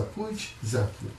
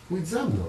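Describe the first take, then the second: First: "Pójdź za Kim?" slow and soft, quizzing; slow rhetorical question. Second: "Pójdź za mną" with the weight on "za"; stress on ZA. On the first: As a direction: ask "Pójdź za Kim?" slowly, leading the answer. (powolne pytanie retoryczne "Pójdź za Kim?") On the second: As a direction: give the answer, leaning on "za". (akcent na "za" w "Pójdź za mną") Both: Shown as a demonstration.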